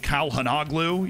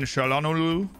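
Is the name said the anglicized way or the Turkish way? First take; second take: anglicized; Turkish. First: The name is said with English-style sounds. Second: The name is said with Turkish-style sounds. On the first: The speaker calls it wrong. "whatever some English commentator would say" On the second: The speaker calls it right. "is like closer"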